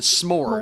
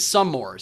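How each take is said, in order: First: It is said as one syllable. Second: It is said as two syllables. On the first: This is how the group says it. "we pronounce it s'mores" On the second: This is how one other person says it. "but he's some mores"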